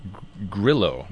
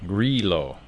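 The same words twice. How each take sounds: First: Grillo with a short i, GRILL-oh; first-try pronunciation. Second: Grillo with a long ee, GREE-loh; corrected pronunciation. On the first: Wine guest trying out an unfamiliar grape name, tentative pronunciation of Grillo. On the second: Wine guest settling how the grape is pronounced, Grillo as GREE-loh. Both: Shown as a demonstration. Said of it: "it would be pronounced".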